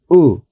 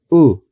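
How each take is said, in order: The two takes are said the same way.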